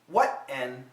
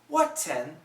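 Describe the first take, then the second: First: The T is held as an unreleased stop. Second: The T is fully released between the vowels. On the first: "A stop sound" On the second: "With a T"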